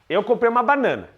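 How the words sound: The voice falls to a firm finish at the end. The statement is complete.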